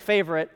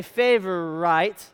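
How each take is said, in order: First: Said in the usual way. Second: "favorite" said as favor-ite, ending like "night"; coined pronunciation. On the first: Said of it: "Now, you think favorite". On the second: Shown as a demonstration. Preacher likens it to Burlesonite, "favorite" ending in "ite". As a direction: stretch "favorite" into favor plus a long "ite". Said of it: "if I was to say favorite".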